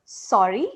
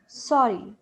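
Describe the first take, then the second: First: SORRY rising sharply, as if asking; questioning rise. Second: SORRY falling at the end, as an apology; apologetic falling tone. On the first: Teacher showing a sorry for not having understood, rising tone. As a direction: say "sorry" with the pitch swinging up at the end. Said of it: "maybe I didn't understand what you said". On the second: Teacher showing a sincere apology, falling tone. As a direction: say "sorry" with the pitch coming down. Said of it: "it means I'm sincerely sorry". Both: Shown as a demonstration.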